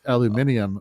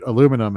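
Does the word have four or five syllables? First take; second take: five; four. First: The word is said with five syllables. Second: The word is said with four syllables. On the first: This is the British pronunciation. "how it is pronounced aluminium over there" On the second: This is the American pronunciation. "how we pronounce it in the States"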